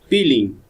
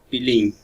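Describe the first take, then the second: First: The stress is on the first syllable. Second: The stress is on the last syllable. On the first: The speaker calls it right. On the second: The speaker calls it wrong. "no peeling"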